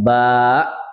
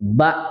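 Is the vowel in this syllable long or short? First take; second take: long; short. First: The vowel is drawn out long. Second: The vowel is kept short. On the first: "Boleh dipanjangkan" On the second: "ba gitu saja"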